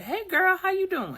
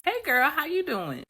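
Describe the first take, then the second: First: Put-on high, bright-eyed hey girl greeting, much higher; bubbly greeting. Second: Put-on much higher, bright hey girl; bubbly greeting. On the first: Greeting a friend you run into, high and bubbly. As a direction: chirp it out to an old friend. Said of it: "you like". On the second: Greeting the friend again, high and bubbly. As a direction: sing it out to an old friend. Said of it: "here's my response".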